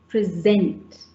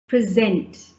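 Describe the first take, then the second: First: The stress is on the second syllable. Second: The same.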